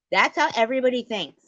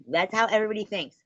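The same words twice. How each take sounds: First: High, loud, fast shout. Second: Raised, fast, heated; loud. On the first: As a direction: yell it louder still. Repeated even louder. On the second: Rising shout. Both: Real, not acted.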